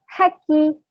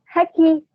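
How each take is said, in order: First: The middle consonant is short and single. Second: The same.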